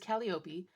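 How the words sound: The name is pronounced the Greek way. "we're pronouncing it the way that she would"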